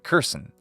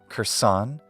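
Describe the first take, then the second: First: The stress is on the first syllable. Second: The stress is on the second syllable. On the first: The speaker calls it wrong. "switch the accent to the first syllable" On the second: The speaker calls it right. "retain the accent on the original syllable"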